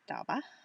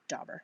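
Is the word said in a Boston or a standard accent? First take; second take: Boston; standard. First: It is said in a Boston accent. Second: It is said in a standard accent. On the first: The speaker calls it wrong. "that was my Boston accent" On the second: The speaker calls it right.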